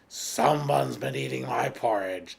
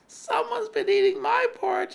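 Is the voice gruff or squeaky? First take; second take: gruff; squeaky. First: The voice is deep, gruff and rough. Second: The voice is high, small and squeaky. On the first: "in his gruff, rough voice" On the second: "squeaked the teeny little weeny bear in his teeny weeny voice"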